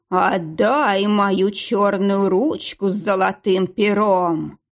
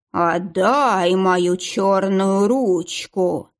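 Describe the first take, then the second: First: Slow, drawn-out ghostly moan; a hint of a ghost from the grave; sepulchral ghost voice. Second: Slow hollow ghostly voice; sepulchral ghost voice. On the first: (загробный голос, медленно) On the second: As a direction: drag it out like a ghost from the grave. (загробный голос) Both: A narrator's reading. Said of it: "говорит загробным голосом".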